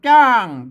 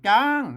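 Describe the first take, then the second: First: The syllable has a falling tone. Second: The syllable has a high tone. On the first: "เสียงโท" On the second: "เสียงตี"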